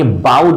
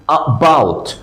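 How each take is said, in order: First: বাউড with the opening uh left off; wrong pronunciation. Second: About opened with a very short, light "uh"; correct short schwa. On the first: Teacher quotes learners' mistake, বাউড without its opening schwa. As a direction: drop the first syllable of about, starting on "b": বাউড. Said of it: "এটা ভুল". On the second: Teacher corrects learners, about with its brief opening schwa. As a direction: say about as a quick "uh" plus "BOUT". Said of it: "খুব short ভাবে বলার কারণে". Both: Shown as a demonstration.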